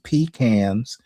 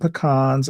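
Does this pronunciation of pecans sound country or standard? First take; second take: country; standard. First: It is said in a country way. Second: It is said in a standard, non-country way. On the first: The speaker calls it right. "I pronounce them pecans" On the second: The speaker calls it wrong. "I don't pronounce them pecans"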